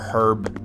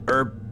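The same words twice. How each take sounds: First: The word is said in a British way. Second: The word is said in a non-British way.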